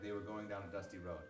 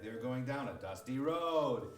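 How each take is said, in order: First: The phrase is said with a level, ordinary pitch. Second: The phrase is said with an oddly raised pitch. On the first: "let's say the phrase was like" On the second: "he would just raise the tone for no reason"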